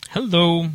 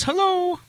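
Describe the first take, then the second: First: Said in the usual way. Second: A very high sung hello; high mock hello. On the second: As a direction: chirp hello up high like a friendly guest. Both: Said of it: "Umbretta says".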